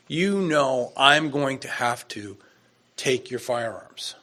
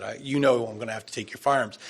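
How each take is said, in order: First: Slow, firm falling statement, no question in it; deliberate officer's order, every word falling. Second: Fast, falling matter-of-fact statement; brisk replay of the officer's line; quick retelling. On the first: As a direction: lay it down as a command, not asking. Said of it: "It didn't sound like a question". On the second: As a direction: rattle it off as a flat order. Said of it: "That's what he said". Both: Retold or imitated.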